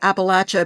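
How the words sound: It is said with a Southern pronunciation.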